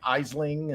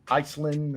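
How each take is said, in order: First: It begins with an 'eye' sound, ending 'ling'. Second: It begins with an 'eye' sound, ending 'land'. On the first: "people are like" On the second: "people are like"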